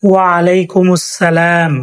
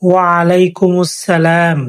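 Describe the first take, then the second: No difference in how they are said.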